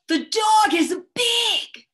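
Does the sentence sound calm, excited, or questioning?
excited. It is said with strong expression and feeling. The dog could be very big and scary. "I said it with a lot of expression and a lot of feeling"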